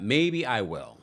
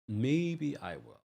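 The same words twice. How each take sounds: First: Said in the usual way. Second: Slow, soft teasing maybe; coy tease. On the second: Pretend. Host teasing chat about a recap, slow coy maybe. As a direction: dangle it playfully for the fans.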